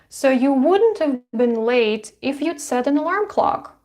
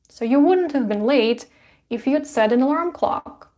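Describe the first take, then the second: First: The verbs are said as short contractions. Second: The same.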